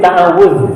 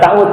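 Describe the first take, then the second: First: The word is said in its full form. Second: The word is shortened to two syllables. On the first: "Asalnya ta'awud" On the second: "Disesuaikan dengan lidah orang Sunda"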